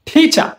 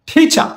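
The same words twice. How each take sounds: No difference in how they are said.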